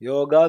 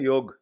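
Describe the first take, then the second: First: The word ends with a full final vowel. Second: The word ends without its final vowel.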